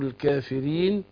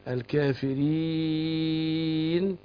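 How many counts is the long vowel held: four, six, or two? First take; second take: two; four. First: The long vowel is held for two counts. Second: The long vowel is held for four counts. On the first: "اتنين اربعة ستة" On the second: "أربعة"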